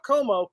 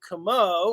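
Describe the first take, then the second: First: The first vowel sounds like 'oh'. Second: The first vowel sounds like 'ah'. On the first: The speaker calls it wrong. "not Como" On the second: The speaker calls it right. "I'm [name]"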